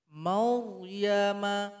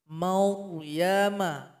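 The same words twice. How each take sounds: No difference in how they are said.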